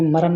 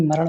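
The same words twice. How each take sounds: First: मरण mispronounced as "maran", plain n; dental na. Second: मरण ending in a curled ṇ; retroflex ṇa. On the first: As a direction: end मरण with the tongue forward. (मरण को "मरन" बोलें) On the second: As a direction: curl the tongue back to finish मरण. (मरण के अंत में "ण" बोलें) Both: Shown as a demonstration. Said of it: "अड़ा और ना संबंधित".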